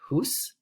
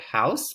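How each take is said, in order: First: The vowel is a long 'oo' sound. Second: The vowel is an 'ow' sound. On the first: This is the Middle English pronunciation. "but we'd pronounce it" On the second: This is the modern English pronunciation. "here we have the word house"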